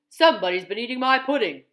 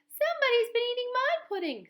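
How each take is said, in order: First: It is said in a great big voice. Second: It is said in a wee little voice.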